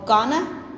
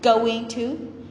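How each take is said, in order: First: The two words blend into one reduced form. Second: The two words are said fully and separately. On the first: It is casual slang. "or gonna" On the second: It is the full standard form.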